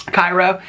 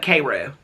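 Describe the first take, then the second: First: Cairo said KYE-roh; Cairo as in Egypt. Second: Cairo said KAY-roo; local pronunciation. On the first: Explaining a town name, she says Cairo as KYE-roh. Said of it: "spelled like Cairo". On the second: Explaining local usage, she says Cairo as KAY-roo. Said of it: "but they call it Cairo". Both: Shown as a demonstration.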